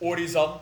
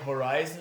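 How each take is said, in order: First: The name is said with a Dutch pronunciation. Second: The name is said without a Dutch pronunciation. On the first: The speaker calls it wrong. "just just the Dutch pronunciation" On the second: The speaker calls it right. "oh yeah, that makes so much more sense"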